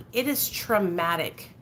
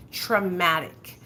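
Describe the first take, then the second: First: Slow, weighty "traumatic"; slow and heavy on "traumatic"; stressed. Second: "Traumatic" alone, very slow and falling; one slow heavy word "Traumatic"; stress on TRAUMATIC. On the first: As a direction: lean hard on "traumatic". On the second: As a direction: drag out "Traumatic" for weight. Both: Real, not acted.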